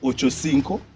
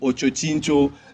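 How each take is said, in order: First: The name ends with a 'cinco' sound. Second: The name ends with a 'chincho' sound. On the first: The speaker calls it right. "do people actually know that that is Ochocinco" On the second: The speaker calls it wrong. "I hear people saying Ochochincho"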